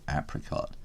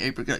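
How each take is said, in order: First: It is said with an American pronunciation. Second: It is said with a British pronunciation. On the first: "you may say apricot" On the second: "I say apricot"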